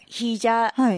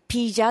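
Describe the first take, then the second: First: The word begins with an h sound. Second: The word begins with a p sound. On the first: "ヒージャーって言うじゃない" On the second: "パピプペポなんですよ"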